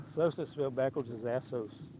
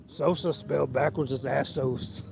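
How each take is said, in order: First: Said in the usual way. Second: Slow, drawn-out attempt at Harry Carey; a modest try at Harry Carey, spoken slowly; Harry Carey impression. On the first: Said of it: "the first one I ever heard him say". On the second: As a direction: stretch it out like an old ballpark announcer. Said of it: "I can't do a good Harry like you, teacher, but I'll try".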